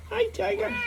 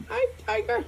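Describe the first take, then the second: First: Very high, soft, rising coo. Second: Very high, soft cooing. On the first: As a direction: lift the end into a coo. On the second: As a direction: softly coo "Hi" up high. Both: Real, not acted. Owner cooing at his dog.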